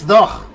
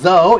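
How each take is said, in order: First: The word ends in a throaty consonant. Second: The word ends in a vowel sound. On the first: This is how the word was said long ago. "It had this sound. ... It's like in Arabic" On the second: This is how the word is said today. "It wasn't though"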